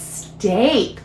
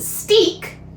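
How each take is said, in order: First: The vowel is pronounced as a long A. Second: The vowel is pronounced as a long E. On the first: The speaker calls it right. "it can say the A sound" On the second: The speaker calls it wrong. "this isn't steak. Hmm, that doesn't sound right"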